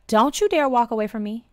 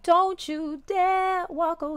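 First: It is said in a sassy, defiant way. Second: It is said in a pleading, begging way.

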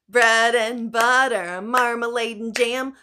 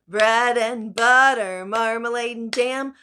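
Both takes have the same delivery.

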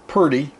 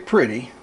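First: The word is said in a Southern accent. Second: The word is said in a standard accent. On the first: The speaker calls it right. "Down south here you say purdy" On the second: The speaker calls it wrong. "You don't say pretty"

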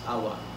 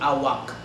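First: The word ends without a k sound. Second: The word ends with a k sound. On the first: This is how it is said in Malaysia. "you guys just pronounce it as awa" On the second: This is how it is said in the Philippines. "it's gonna be awak here in the Philippines"

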